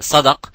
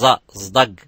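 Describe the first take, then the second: First: The word begins with an S sound. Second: The word begins with a Z sound.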